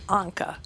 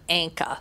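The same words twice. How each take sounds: First: It is said without the Minnesota pronunciation. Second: It is said with a Minnesota pronunciation. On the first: The speaker calls it right. "I think it is Anka" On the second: The speaker calls it wrong. "not Anka, like we say in Minnesota"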